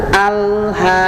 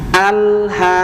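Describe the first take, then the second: Both takes have the same delivery.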